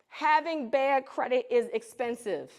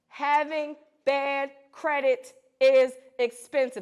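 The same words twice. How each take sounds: First: It is said at a normal volume. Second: It is said loudly with a deeper voice.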